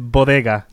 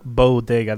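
First: The first vowel has no w glide after it. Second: The first vowel has a w glide after it. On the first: The speaker calls it right. "it's bodega" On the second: The speaker calls it wrong. "not bodega. There's no W"

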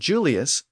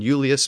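First: The word begins with a J sound. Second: The word begins with a Y sound. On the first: This is the later pronunciation. "the Y sound became a J sound" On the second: This is the older Latin pronunciation. "the Y sound became a J sound"

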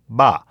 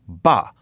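First: The b is released without a puff of breath. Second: The b is released with a puff of breath. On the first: "Not aspirated" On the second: "And so aspirated"

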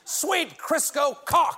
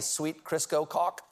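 First: It is yelled in an angry voice. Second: It is said calmly, in a plain voice.

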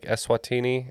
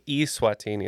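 First: The first syllable does not sound like email's 'e'. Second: The first syllable sounds like the 'e' in email. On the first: It names the real country. The speaker calls it right. "the correct pronunciation is like Eswatini" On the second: It sounds like something sent electronically. The speaker calls it wrong. "it sounds like you're like emailing it to somebody"

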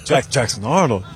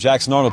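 First: The name is said in an impressed, admiring tone. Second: The name is said in a plain, neutral tone. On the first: He is now seen as someone special. "they just changed the tone of delivery a little bit" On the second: He is just another name. "has gone from Jackson Arnold"

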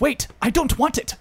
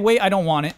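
First: Every T sound is crisply pronounced. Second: The T sounds are softened or dropped. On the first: No one actually talks this way. The speaker calls it wrong. "But nobody says" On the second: This is how people normally talk. The speaker calls it right. "we say"

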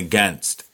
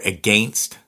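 First: It is said with an American pronunciation. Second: It is said with a Canadian pronunciation. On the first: "So I have to say again. And against" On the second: "as Canadians, we say again or against"

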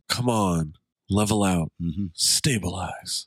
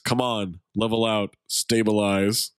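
First: The line is said in a sensual, intimate voice. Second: The line is said in a plain, ordinary voice.

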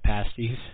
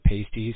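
First: The first vowel is an 'ah' sound. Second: The first vowel is not an 'ah' sound. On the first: The speaker calls it right. "they call it pasties" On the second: The speaker calls it wrong. "so that people don't call it pasties"

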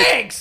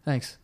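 First: It is said loudly and enthusiastically. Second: It is said quietly and briefly.

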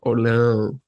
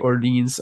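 First: It is said with a French-style pronunciation. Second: It is said with an English-style pronunciation. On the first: It is an attempt at the native form. The speaker calls it right. "I will try to say Orleans" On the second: It is the habitual anglicized form. The speaker calls it wrong. "I'm sorry, it's just a habit"

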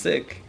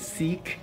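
First: The vowel is short, like in 'sick'. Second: The vowel is long, like in 'seek'. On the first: The speaker calls it right. "the right way to say it is Sikh" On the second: The speaker calls it wrong. "a lot of people say Sikh"

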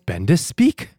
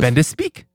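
First: It is hammed up slowly and theatrically. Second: It is said quickly and plainly.

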